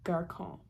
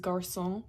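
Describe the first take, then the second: First: The middle consonant is a K sound. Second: The middle consonant is an S sound. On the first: The letter has no cedilla. "if you didn't have the accent, it would be garçon" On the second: The letter carries the cedilla. "the other main example of this is garçon"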